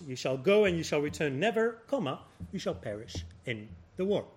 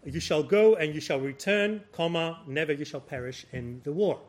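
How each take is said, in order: First: The break comes after the word never. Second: The break comes before the word never. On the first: You will not come back and will die in the war. The speaker calls it right. "the comma should have been somewhere else" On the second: You will come back and not die in the war. The speaker calls it wrong. "you shall return, comma, never you shall perish"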